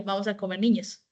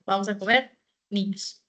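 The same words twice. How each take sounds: First: "Vamos a comer niños" runs straight on with no break; no comma pause. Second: "comer" rises, then a short pause before "niños"; comma pause before niños. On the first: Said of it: "si en ese caso no hubiera puesto la coma". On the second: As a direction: call the children to the table, pausing after "comer". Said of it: "Estás haciendo una invitación". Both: Shown as a demonstration.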